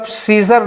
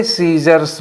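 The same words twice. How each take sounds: First: सीजर ending on R, no S sound; scissor without final S. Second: सीजर्स with an S sound after the R; scissors with final S. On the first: Teacher shows students the form to avoid, सीजर without final S. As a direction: say सीजर with the closing S left off. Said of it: "कभी भी आप सीजर नहीं बोलेंगे". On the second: Teacher shows students the correct form, सीजर्स with final S. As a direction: close सीजर्स on an audible S. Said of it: "जब भी बोलेंगे सीजर्स बोलेंगे". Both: Shown as a demonstration.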